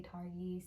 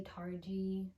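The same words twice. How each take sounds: First: Targhee with a hard g, like "Tar-ghee"; "Targhee" pronounced TAR-ghee; own pronunciation. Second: "Targhee" pronounced TAR-jee; alternate pronunciation. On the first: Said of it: "but I say Targhee". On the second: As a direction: say Targhee with a j sound in the middle. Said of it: "I've heard some people say". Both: Shown as a demonstration.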